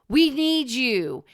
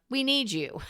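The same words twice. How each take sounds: First: It sounds negative and desperate. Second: It sounds warm and uplifting.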